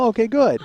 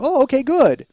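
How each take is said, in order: First: High, louder reply, falling at the end; retold nervous "okay, good"; uneasy relief. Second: Much higher, louder, laughing replay; hammed-up squeaky "okay, good"; exaggerated uneasy relief. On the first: Son learns mom heard his podcast, high-pitched uneasy relief. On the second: Son re-enacts his reply to mom, hammed-up high relief. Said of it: "That's what I said. I go".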